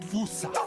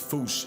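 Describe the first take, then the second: First: It is said with an American pronunciation. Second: It is one syllable ending in a sh sound. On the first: This is how Americans say it. The speaker calls it wrong. "has Americans saying Fusa" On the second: This is closest to the original language. The speaker calls it right. "the closest to the O G Malagasy pronunciation"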